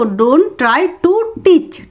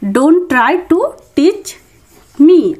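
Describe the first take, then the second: First: Slow and a little higher; slow teaching demo. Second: Slow, a bit higher, last word louder; slow teaching demo. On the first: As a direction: stretch it out for learners. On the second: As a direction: build to the word me. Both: Shown as a demonstration. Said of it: "এইভাবে বলবো".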